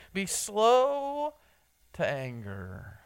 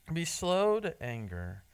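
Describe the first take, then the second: First: Drawn out slowly. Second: Said in the usual way. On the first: Shown as a demonstration. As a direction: let "slow" hang up high, then ease down. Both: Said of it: "or as he says".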